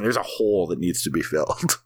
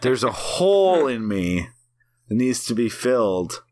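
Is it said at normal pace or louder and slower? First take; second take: normal pace; louder, slower. First: It is said at normal loudness and pace. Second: It is said louder and more slowly.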